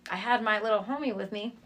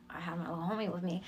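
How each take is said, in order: First: Said in the usual way. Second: Whispered aside. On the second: Acted. Whispered to the host about the homie along. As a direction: let the audience in on a secret. Repeating a line as a secret aside.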